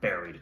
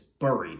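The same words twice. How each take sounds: First: The word is said the everyday American way. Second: The word is said with an unusual first vowel. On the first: This is how people say it in the States. The speaker calls it wrong. "Don't ask me why we pronounce it like that here in the States" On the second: This is the technically correct form. The speaker calls it right. "Technically, I guess it's buried"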